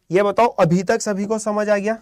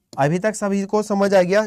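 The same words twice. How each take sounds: First: Said in the usual way. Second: Slower, drawn-out repeat of the question; slow repeated check. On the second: Real, not acted. Teacher re-asks the class if all understood, slowly. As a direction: ask it again, slowly and deliberately.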